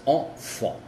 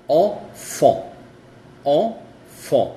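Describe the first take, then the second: First: Enfant as o-fo at normal strength; French enfant, normal. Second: Enfant with two nasal vowels, said loud; French enfant, loud, nasal; loud French demo. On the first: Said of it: "sonido normal". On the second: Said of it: "se dice on". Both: Shown as a demonstration.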